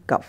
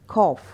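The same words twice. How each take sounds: First: कफ as short, low "kuff"; short "uh" vowel in कफ; Hindi-style mistake. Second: कॉफ with a long open "aw"; English pronunciation. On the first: Teacher naming what to avoid, कफ as "kuff". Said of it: "ना कि कफ". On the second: Teacher correcting cough for learners, कॉफ with "aw". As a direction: say कॉफ as "kawf". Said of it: "हमें बोलना है कॉफ". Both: Shown as a demonstration.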